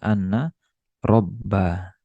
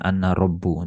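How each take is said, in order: First: The second word ends in an a vowel. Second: The second word ends in a u vowel. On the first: The speaker calls it right. "dibaca anna robba" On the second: The speaker calls it wrong.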